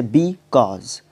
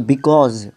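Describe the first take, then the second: First: "because" said slowly with the weight on "cause"; be-CAUSE, second syllable stressed. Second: "because" with full force on "cause"; be-CAUSE, second syllable pushed a little louder; stress on cause. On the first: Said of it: "बी पे हम इतना जोर नहीं देते हैं, कॉज पे हम ज़्यादा जोर देते हैं". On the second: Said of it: "पूरा स्ट्रेस आता है". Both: Shown as a demonstration.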